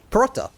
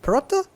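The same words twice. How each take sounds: First: "Paratha." said with a firm falling tune; "Paratha." falling, landing on the word with certainty; settled paratha. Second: "Paratha?" asked with a rising question tune; "Paratha?" rising, as if asking whether that is right; unsure paratha. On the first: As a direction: confirm "Paratha." as a final answer. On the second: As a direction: try out "Paratha?" as a question, checking the sound. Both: Shown as a demonstration. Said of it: "naan, and paratha".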